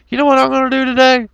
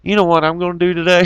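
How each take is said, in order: First: Much higher, fast cartoon schemer voice; squeaky mocking impression of a troublemaker; mock gleeful schemer. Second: Said in the usual way. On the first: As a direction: play the giddy hoaxer plotting mischief. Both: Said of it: "and say".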